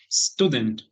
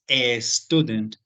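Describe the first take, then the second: First: The word starts directly with the s sound. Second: An extra e vowel comes before the s. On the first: The speaker calls it right. "Tendríamos que hacer el sonido de la S nada más" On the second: The speaker calls it wrong. "le ponemos la E y decimos a student, pero eso es un error"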